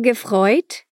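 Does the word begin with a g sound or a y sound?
g sound. The word begins with a g sound. "O verbo gefreut"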